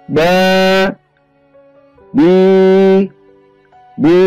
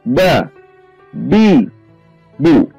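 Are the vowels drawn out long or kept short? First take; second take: long; short. First: Each vowel is drawn out long. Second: Each vowel is kept short, one beat. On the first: The speaker calls it wrong. "kita tidak boleh memanjangkan bacaan. Seperti ba, bi, bu. Ini tidak diperkenankan" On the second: The speaker calls it right. "bacalah dengan satu ketuk saja"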